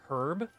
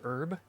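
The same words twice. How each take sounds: First: The word begins with an audible H sound. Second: The word begins without any H sound. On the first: "We pronounce the H for the green one, right? Like herb" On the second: "as opposed to herb"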